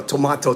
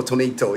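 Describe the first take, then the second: First: Tomato with an ah, to-MAH-to; broad ah in the middle of tomato; pronunciation contrast. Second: Tomato with an ay, to-MAY-to; long ay in the middle of tomato; pronunciation contrast. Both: Shown as a demonstration. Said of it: "pronunciation's not that important".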